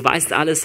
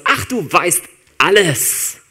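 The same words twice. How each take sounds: First: Said in the usual way. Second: Slow, drawn-out, higher, louder dismissive ach; dismissive sigh. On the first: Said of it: "sondern du weißt alles". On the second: Shown as a demonstration. Not how Petrus says it to Jesus: a dismissive, drawn-out ach. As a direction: wave it off with a long weary ach. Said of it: "das ist nicht sowas".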